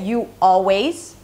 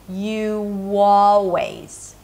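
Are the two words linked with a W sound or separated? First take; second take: separated; linked. First: The two words are said separately with a break. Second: The words are joined by a W sound between. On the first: The speaker calls it wrong. "I don't say you always, I mean I do if I separate the words" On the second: The speaker calls it right. "but if I want to connect them"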